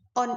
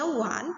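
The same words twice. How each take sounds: First: "on" with an opening O vowel; spelt "on" reading. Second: "one" opened with a W glide, "wan". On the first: Teacher contrasting spelling with sound, "on" without W. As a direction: say "on" as written, no W. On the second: Teacher contrasting sound with spelling, "one" with initial W. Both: Shown as a demonstration. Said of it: "on ini dibaca one".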